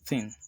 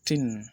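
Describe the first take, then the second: First: It begins with a soft th sound. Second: It begins with a hard t sound. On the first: "when you have a word like thin" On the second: "the h before the t gets dropped and, and it becomes thin"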